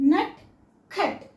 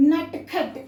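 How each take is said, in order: First: "నట్ఖట్" very slowly, pause between nat and khat; "నట్ఖట్" as two separated syllables; split into halves. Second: "నట్ఖట్" joined as nat-khat; "నట్ఖట్" in two quick linked beats; half second and fourth. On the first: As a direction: break "నట్ఖట్" in two, each t bare. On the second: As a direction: say "నట్ఖట్" as one word, both t sounds bare. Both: Shown as a demonstration. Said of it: "second letter".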